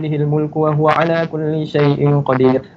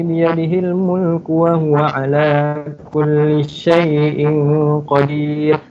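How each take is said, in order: First: It is recited very quickly. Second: It is recited at a moderate pace. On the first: The reciter is going over a lot of text. "dia kena baca laju" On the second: It suits leading the prayer. "tak terlalu laju, tak terlalu slow"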